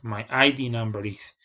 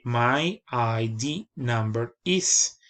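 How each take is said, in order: First: Said in the usual way. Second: "My I D number is" said slowly, each word apart, "I D" as two letters, rising on "is"; slow model phrase. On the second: Shown as a demonstration. Teacher modelling "My I D number is" slowly for students. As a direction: dictate "My I D number is" slowly for learners. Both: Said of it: "Y se dice".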